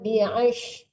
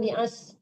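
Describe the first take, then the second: First: The consonant is a sh sound. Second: The consonant is an s sound. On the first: The speaker calls it right. "Shin ya" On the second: The speaker calls it wrong. "Jangan bi'as"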